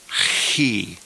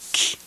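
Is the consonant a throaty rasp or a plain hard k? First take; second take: throaty rasp; hard k. First: The consonant is a rasping sound far back in the throat. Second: The consonant is a plain hard k stop. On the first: "I pronounce it further back in the throat with more of a guttural sound" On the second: "it's okay to pronounce it with just a hard C H sound"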